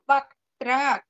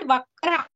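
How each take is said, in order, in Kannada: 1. ಇದನ್ನು r ಗೆ ಮುಂಚೆ t ಜೊತೆಗೆ ಹೇಳಲಾಗುತ್ತದೆ. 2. ಇದನ್ನು r ಗೆ ಮುಂಚೆ t ಇಲ್ಲದೆ ಹೇಳಲಾಗುತ್ತದೆ. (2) "It's not Vakra"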